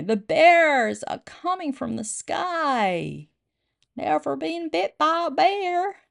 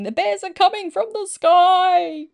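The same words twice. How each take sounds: First: High, slow, hammed-up American accent; exaggerated high-pitched American sailor accent. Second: High, loud, drawn-out warning cry; hammed-up sailor's yell; sailor's panicked shout. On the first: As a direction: draw it out in a put-on American accent. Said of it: "I've gotta say that in American accent". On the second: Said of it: "One American sailor dove into the harbour shouting".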